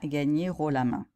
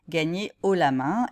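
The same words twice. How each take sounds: First: Gagner links into haut with an r sound. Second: Gagner is kept separate from haut. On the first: The speaker calls it wrong. "non pas" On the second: The speaker calls it right. "on dit"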